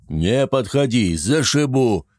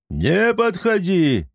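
First: Slow threatening yell; threatening shout. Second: Slow, drawn-out hysterical yell; panicked brute shouting back. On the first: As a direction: warn them off, ready to hit. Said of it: "Мужики орали". (угрожающий крик) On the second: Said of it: "истерично орал один из них". (истеричный крик) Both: A narrator's reading.

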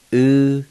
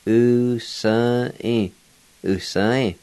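First: "U-sa-i" split into long, separate syllables; slow teaching breakdown of "U-sa-i"; syllable-by-syllable pronunciation. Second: "U-sa-i" run together as one word; connected teaching example of "U-sa-i"; joined-up pronunciation. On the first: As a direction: stretch U, then sa, then i, with pauses. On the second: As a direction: blend the syllables of "U-sa-i" without long gaps. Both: Shown as a demonstration. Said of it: "pronounce these words".

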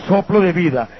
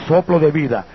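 No difference in how they are said.

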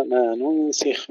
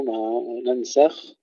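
First: ننسخ as nunsikh, u then i; Ibn Amir reading. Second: ننسخ as nansakh, a in both syllables; majority reading. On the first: Teacher shows Ibn Amir's variant, nunsikh for ننسخ. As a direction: say ننسخ with damma first, kasra on seen. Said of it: "يقرأها ننسخ من الفعل الرباعي". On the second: Teacher shows other readers' form, nansakh for ننسخ. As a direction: open both vowels of ننسخ to a. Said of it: "من الثلاثي". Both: Shown as a demonstration.

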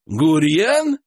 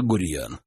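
First: Drawn-out questioning echo of «Гурьян», rising high; incredulous rising «Гурьян?»; disbelieving. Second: Said in the usual way. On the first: A narrator's reading. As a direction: repeat «Гурьян» as if you can't believe the name. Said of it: "не поверил хозяин".

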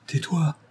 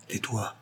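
First: Higher-pitched, urgent order; tense command to be silent. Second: Much softer, hushed command; alarmed order. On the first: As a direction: hush him at once. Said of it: "ordonna-t-il". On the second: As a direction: hush him as if afraid of being overheard. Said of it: "en promenant autour de lui des regards effarés". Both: A narrator's reading.

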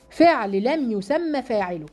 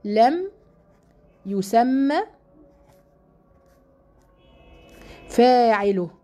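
First: Said in the usual way. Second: Each word alone with long pauses; word-by-word dictation. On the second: Shown as a demonstration. Teacher dictating to her class, word by word. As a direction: dictate it slowly for students to write. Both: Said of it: "اسمه فعل إيه؟".

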